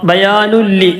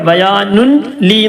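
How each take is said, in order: First: The n merges fully into the following l. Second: The n is pronounced separately before the l. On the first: The speaker calls it right. "ലാമിലേക്ക് നേരെ കൂട്ടി യോജിപ്പിക്കുക" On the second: The speaker calls it wrong. "എന്ന് പറയരുത്"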